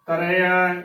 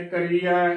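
First: ਕਰਿਆ with a short open i, ka-re-aa; careful ਕਰਿਆ, no long ee; correct short vowel. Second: ਕਰੀਆ with a long ee in the middle; demonstrated mistake, ਕਰੀਆ stretched to ee; wrong long ee. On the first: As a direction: keep the middle of ਕਰਿਆ short. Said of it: "ਸ਼ੁੱਧ ਉਚਾਰਨ ਹੈ". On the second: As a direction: say ਕਰੀਆ as ka-ree-aa. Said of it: "ਗਲਤ ਉਚਾਰਨ ਹੈ". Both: Shown as a demonstration.

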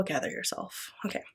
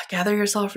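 First: Soft whispered self-calming; whispered gather yourself. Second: Said in the usual way. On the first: Real, not acted. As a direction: hush yourself down.

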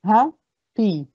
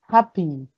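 First: "happy" split into "ha", pause, "py"; each half of "happy" said separately, "ha... py"; syllable by syllable. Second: Said in the usual way. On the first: Shown as a demonstration. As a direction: break "happy" into two clear beats. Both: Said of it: "Yes, two syllables".

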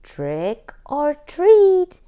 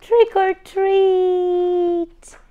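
First: Trick or treat said slowly and high, each word apart; slow model phrase. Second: Trick or treat drawn out slow, high and loud; chorus shout. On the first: Shown as a demonstration. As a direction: teach it slowly, like a model to copy. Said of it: "Repeat after me". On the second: Acted. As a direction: cheer it together at the door. Crayons all knock.

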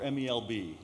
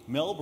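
First: "M E L B" letter by letter; spelled out. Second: "melb" as a single syllable; said as one word. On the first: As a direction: say each letter of "M E L B" by its English name. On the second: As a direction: pronounce "melb" as one word, not spelled out. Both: Shown as a demonstration. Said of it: "I forgot to ask you, is it melb or".

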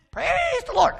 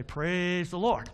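First: Very high, loud squawk; thrown bird voice. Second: Said in the usual way. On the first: Acted. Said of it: "I wouldn't move my mouth". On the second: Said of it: "I was gonna say".

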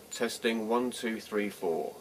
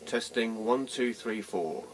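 No difference in how they are said.

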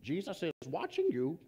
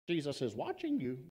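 First: A hint of a creepy unseen voice, hushed; creepy hidden voice. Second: Lightly voiced creepy voice, hushed and soft; eerie words into the dark, understated. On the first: Parrot to thief in the dark, lightly voiced creepy voice. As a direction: spook the burglar from the dark. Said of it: "all of a sudden he heard". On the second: Parrot repeats to thief, a hint of a creepy voice. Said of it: "that same creepy voice piercing the darkness".

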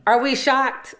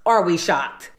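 First: Higher, mock-gasping question; mock shock. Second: Flat, falling, unimpressed repeat; deadpan. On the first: Narrator teasing the audience about the fake watch, higher mock surprise. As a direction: pretend you can't believe it. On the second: Acted. Narrator teasing the audience about the fake watch, flat deadpan. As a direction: answer your own question dryly. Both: Rhetorical aside to viewers.

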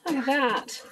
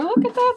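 First: Said in the usual way. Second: High, bright delight; excited. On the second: Real, not acted. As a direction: marvel at how big they got. Seeing the grown kids.

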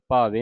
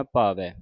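First: ਭਾਵੇ said wrongly with a thin e, "bhave"; wrong pronunciation. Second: ਭਾਵੈ ending on an open ai, said lower; correct pronunciation. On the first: Teacher showing the sangat the wrong "bhave". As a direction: end ਭਾਵੇ on a plain e sound. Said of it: "ਭਾਵੇ ਨਹੀਂ ਪੜ੍ਹ ਦੇਣਾ". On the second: Teacher modelling ਭਾਵੈ with dulavan for the sangat. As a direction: open the end of ਭਾਵੈ into "bhavai". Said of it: "ਦਲਾਵਾਂ ਦੇ ਨਾਲ ਉਚਾਰਨ ਕਰਨਾ ਹੈ". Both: Shown as a demonstration.

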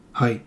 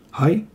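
First: "Hai" low, falling at the end; confirming. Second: "hai?" rising sharply at the end; questioning. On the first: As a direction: answer "Hai" as a settled yes. Nodded answer to the question. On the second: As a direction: ask "hai?" to check for agreement. Seeking agreement, then nodded answer. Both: A narrator's reading.

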